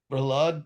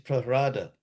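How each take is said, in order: First: The consonant after the h is an L. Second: The consonant after the h is an R. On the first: This is the common everyday form. "nós dizemos Prahlad" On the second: This is the form in the scripture. "mas no Bhagavatam diz Prahrada"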